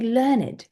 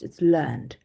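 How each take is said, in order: First: The ending is a separate 'id' syllable. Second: The ending is a plain 'd' sound. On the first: It means educated. "when we're talking about it as an adjective" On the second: It is the past tense of the verb. "when it's a verb, it's in the past"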